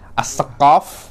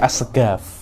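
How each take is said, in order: First: The last syllable starts with a deep q sound. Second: The last syllable starts with a hard g sound.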